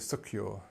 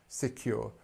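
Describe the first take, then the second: First: The first syllable has a reduced 'uh' vowel. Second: The first syllable has a clear 'ih' vowel. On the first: The speaker calls it wrong. "You can't say secure. It just doesn't sound right" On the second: The speaker calls it right. "you have to say si, secure"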